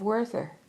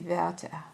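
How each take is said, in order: First: The name is said with English sounds. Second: The name is said with German sounds. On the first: The speaker calls it wrong. "I'm pronouncing this wrong" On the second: The speaker calls it right. "Werther is how you actually pronounce it. It's a German word"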